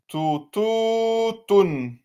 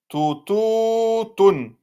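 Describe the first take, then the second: The two takes are said the same way.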